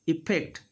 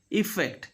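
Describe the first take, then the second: First: EFFECT said as "ippect"; F made a P. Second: EFFECT with an airy F; clear middle F. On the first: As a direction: lips shut on a P in EFFECT. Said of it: "they do". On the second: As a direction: let air through the FF of EFFECT. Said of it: "when F is there in the middle". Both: Shown as a demonstration.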